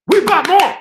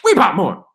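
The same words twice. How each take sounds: First: "We bought more" shouted much higher and louder; excited yell. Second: Said in the usual way. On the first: Real, not acted. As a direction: belt it out in triumph. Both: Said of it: "repeated with escalation".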